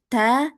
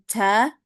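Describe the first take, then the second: First: The t is released with natural, gentle breath. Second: The t is released with too much breath. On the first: The speaker calls it right. "Yang betul ... jadi natural aja" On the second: The speaker calls it wrong. "jangan berlebihan, bukan ca ... Itu salah"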